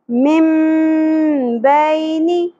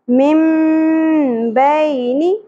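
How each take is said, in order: The two takes are said the same way.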